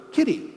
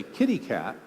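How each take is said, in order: First: Put-on high-pitched toddler naming a cat; small child. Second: Said in the usual way. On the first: Child pointing at a cat that walks in, small child voice. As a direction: pipe up like a delighted little kid. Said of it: "the child goes". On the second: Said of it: "and I say".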